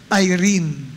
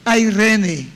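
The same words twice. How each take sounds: First: The word is said with an English pronunciation. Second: The word is said with a Greek pronunciation. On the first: "Pag English pronunciation ay" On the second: "Pero pagka Greek pronunciation ay"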